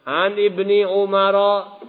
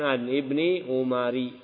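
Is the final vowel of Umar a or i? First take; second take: a; i. First: The name ends with an a vowel. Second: The name ends with an i vowel. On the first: The speaker calls it right. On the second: The speaker calls it wrong. "bukan An Ibni Umari, ya, salah"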